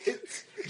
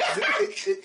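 First: Schwitz breathed out unvoiced and softer; whispered Schwitz. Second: Schwitz spoken slowly with a hissed sch; sounding out Schwitz. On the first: Trying the German name again, whispered. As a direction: whisper Schwitz like a final try. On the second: Sounding out a German name for friends, hissed and slow. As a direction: spell out Schwitz like reading a strange name. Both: Shown as a demonstration. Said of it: "I just spelled whiz".

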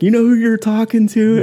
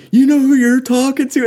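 First: Playful threat, pitched up; mock challenge. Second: High, louder challenging demand; playful threat, pitched way up; mock challenge. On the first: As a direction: warn the guy off. Ben's line repeated. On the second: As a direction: call him out on who he's messing with. [name] confronts the yeller.

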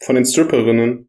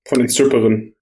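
First: Cold-blocked nose, said again; stuffy nose. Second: Blocked nose from a cold; talking through a stuffy nose. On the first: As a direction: repeat through a stuffy nose. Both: Real, not acted. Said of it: "Sorry, ich bin ein bisschen erkältet".

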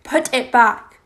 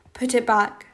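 First: Louder, forceful order; insist, losing control; distraught raised-voice demand; insistent demand. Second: Said in the usual way. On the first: A narrator's reading.

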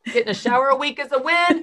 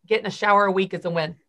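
First: "win" punched, higher and louder; emphatic repeat. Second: Said in the usual way. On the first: Shown as a demonstration. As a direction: repeat it, landing hard on "win".

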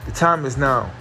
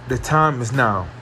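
Both takes have the same delivery.

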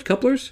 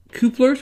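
First: Couplers said as KUH-plers, with a short uh sound; corrected pronunciation. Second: Couplers said as KOO-plers, with an oo sound; odd pronunciation. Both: Shown as a demonstration.

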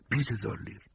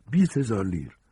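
First: Hushed offer. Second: High, firmer offer at full voice; insistent repeat. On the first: Fugitive offering a woman money for shelter, hushed offer. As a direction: offer it softly, like a secret. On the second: Fugitive repeating his bribe to the woman, insistent offer. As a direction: repeat it clearly so she hears. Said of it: "ساجینی تکرار کرد". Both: Acted.

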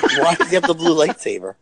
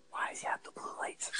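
First: Said aloud through a laugh. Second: Breathy whispered question, no voice at all. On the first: Retold or imitated. Podcaster repeating the theater question aloud, laughing. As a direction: chuckle through the retold question. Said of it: "I don't know why I was whispering". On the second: Real, not acted. Podcaster retelling a theater question, whispering. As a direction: hush it like you're in a dark theater. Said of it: "I don't know why I'm whispering".

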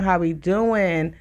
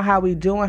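First: Slow drawn-out greeting. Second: Said in the usual way. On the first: Real, not acted. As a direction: stretch "How we doing?" out slowly, leaning on "doing" with a falling end.

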